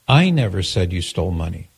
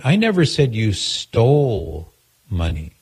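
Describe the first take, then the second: First: The stress is on the word I. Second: The stress is on the word stole.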